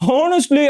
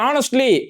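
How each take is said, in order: First: The word starts with an audible h sound. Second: The word starts with a vowel, no h sound. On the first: The speaker calls it wrong. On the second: The speaker calls it right.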